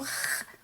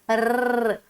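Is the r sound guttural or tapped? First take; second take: guttural; tapped. First: The r is a raspy throat sound. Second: The r is a quick tapped sound. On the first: "o som arranhadinho" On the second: "um sonzinho tremidinho"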